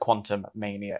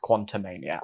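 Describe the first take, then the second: First: It is said as two separate words. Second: It is said as one blended word. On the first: The speaker calls it wrong. "It's not like Quantum Mania" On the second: The speaker calls it right. "I quite like the portmanteau"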